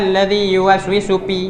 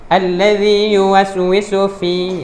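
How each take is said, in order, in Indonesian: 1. Kata terakhir diawali bunyi p. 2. Kata terakhir diawali bunyi f. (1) "Jadi jangan baca alladzi yuwaswisu pi. Nah, salah itu" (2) "Yang betulnya ... ujung gigi atas dan bibir bawah"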